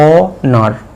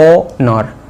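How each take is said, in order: First: The word begins directly with a vowel sound. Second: The word begins directly with a vowel sound.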